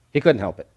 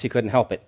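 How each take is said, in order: First: "couldn't" leaned on, "help it" falling away; stress on couldn't. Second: Said in the usual way. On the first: Shown as a demonstration. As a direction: push the word "couldn't".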